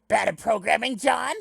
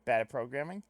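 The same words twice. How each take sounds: First: Loud, high-pitched indignant character voice; Karkat. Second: Said in the usual way. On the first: Acted. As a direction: challenge it loudly, pitch climbing to the end. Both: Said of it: "it's been a while since I've done a Carcat".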